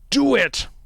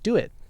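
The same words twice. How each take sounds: First: It is said as a strong, forceful order. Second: It is said as a gentle, mild request.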